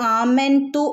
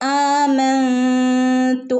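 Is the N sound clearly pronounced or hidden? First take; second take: clear; hidden. First: The N sound is pronounced clearly. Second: The N sound is hidden and nasalized. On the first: The speaker calls it wrong. "ആമന്തു എന്ന് ഓതരുത്" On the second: The speaker calls it right. "നൂനെ മറച്ചു പിടിച്ചു മണിച്ചു വരണം"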